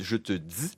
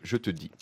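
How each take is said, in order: First: The d is followed by a buzzing z. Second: The d is clean with no buzz. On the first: "Ils disent" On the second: "au lieu de"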